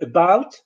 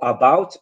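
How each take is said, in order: First: The first vowel is a weak schwa. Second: The first vowel is a full vowel. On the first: The speaker calls it right. "instead of saying about" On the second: The speaker calls it wrong. "or about"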